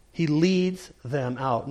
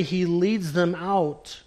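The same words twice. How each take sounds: First: "leads" drawn out and weighted; stress on leads. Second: "leads" slow and weighted; stress on leads. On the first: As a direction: linger on "leads". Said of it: "Notice the present tense action of that verb". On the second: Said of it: "That present tense verb". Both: Shown as a demonstration.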